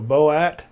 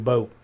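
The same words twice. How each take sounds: First: The vowel is an attempted Swedish-style sound. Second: The vowel is the plain English 'boat' sound. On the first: "Kind of sound kind of like an O A" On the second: "pronounce it like we do"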